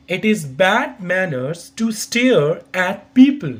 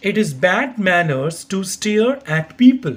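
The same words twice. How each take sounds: First: Same slow, careful model reading; slow repeat. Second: Slow, careful teacher's model reading; slow model sentence. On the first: Teacher repeats the sentence slowly for learners. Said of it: "I repeat". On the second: Teacher slowly models pronunciation for learners. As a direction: say each word slowly so students can copy. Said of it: "pronunciation के according देखिए". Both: Shown as a demonstration.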